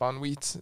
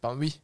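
First: The name ends with a final T sound. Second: The name ends without a final T sound. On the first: "Bon Wheat is another way" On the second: "it's supposed to be pronounced like Bonwee"

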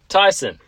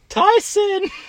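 First: It is said in the speaker's normal voice. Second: It is said in a put-on girlish voice. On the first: "I'm just gonna read it" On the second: "I'll do my best girl impression"

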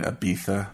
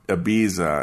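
First: It uses the locals' pronunciation of the name. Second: It uses a non-local pronunciation of the name. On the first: The speaker has really been there. The speaker calls it right. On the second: The speaker has not really been there. The speaker calls it wrong.

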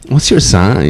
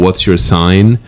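First: It is said in a put-on LA girl accent. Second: It is said in a plain, neutral voice. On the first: The speaker calls it right. "You're supposed to say with the accent and everything" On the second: The speaker calls it wrong. "You're not saying it right"

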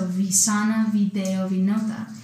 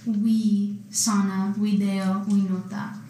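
First: Each word begins with a V sound. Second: Each word begins with a W sound. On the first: This is how it is said today. "But for, you know, this day and age, V" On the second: This is how it was said in ancient times. "Because the V is pronounced as W"

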